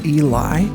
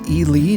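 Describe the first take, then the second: First: The name ends with a 'lie' sound. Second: The name ends with a 'lee' sound. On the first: The speaker calls it wrong. "not Eli" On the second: The speaker calls it right. "Nevada is pronounced Ely"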